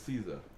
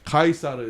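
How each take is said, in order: First: The name is said the English way. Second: The name is said the Latin way. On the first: This is the anglicized form. "Caesar is the anglicized" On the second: This is the original form Koreans learn. "Kaisar is the actual Latin pronunciation"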